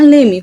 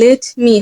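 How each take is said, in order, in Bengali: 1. 'let' শব্দের শেষের t বাদ যায়। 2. 'let' শব্দের শেষের t উচ্চারিত হয়। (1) "লে মি হয়ে যাচ্ছে" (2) "এখানে লেট মি হবে না"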